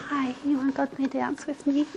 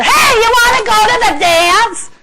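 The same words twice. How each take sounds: First: Very soft, timid-sounding mumbled invitation; too little energy. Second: Loud, high-pitched blaring shout. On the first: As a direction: barely put any energy into asking. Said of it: "That's not enough energy". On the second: Guy asking a girl to the dance, shouting at her. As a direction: holler it at someone across the room. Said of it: "go up and shout at her". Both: Acted.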